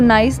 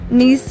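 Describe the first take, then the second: First: The vowel sounds like 'eye', as in nice. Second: The vowel sounds like 'ee', as in see. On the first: The speaker calls it wrong. "इसको नाइस नहीं" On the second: The speaker calls it right. "नीस बोला जाता है"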